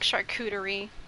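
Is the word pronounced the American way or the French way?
American. It is said with an American English pronunciation. The speaker calls it wrong. "I used to say it Amer- the American way, but I cannot stand people saying charcuterie"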